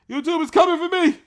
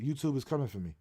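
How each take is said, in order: First: YouTube yelled high and loud in mock alarm; hammed-up alarmed cry; mock panicked yell. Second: Said in the usual way. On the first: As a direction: shout it like they're really coming for you.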